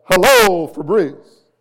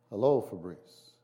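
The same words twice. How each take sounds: First: Much higher, much louder, booming through a theater mask; mask-projected voice. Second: Said in the usual way. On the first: Shown as a demonstration. Pastor demonstrates how an ancient theater mask projected the voice, booming. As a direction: blast "Hello" out like a Roman stage mask amplifying it. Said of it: "it would come out as". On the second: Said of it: "So, so if I say".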